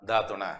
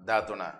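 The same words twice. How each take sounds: The two takes are said the same way.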